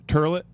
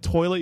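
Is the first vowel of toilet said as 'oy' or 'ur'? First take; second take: ur; oy. First: The first vowel is an 'ur' sound. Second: The first vowel is an 'oy' sound. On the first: "you say turlet" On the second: "Instead of toilet"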